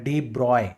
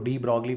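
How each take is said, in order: First: The name is said without any g sound. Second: The name is said with a hard g sound. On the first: This is how people abroad say it. "बाहर pronounce किया जाता है डी ब्रॉय" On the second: This is how people in India say it. "हम यहां पे India में इनको डी ब्रॉगली बोलते हैं"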